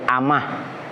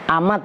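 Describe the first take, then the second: First: The word ends with an h sound. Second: The word ends with a t sound. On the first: "Kalau wakoh berarti amah" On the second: "amat pakai tak"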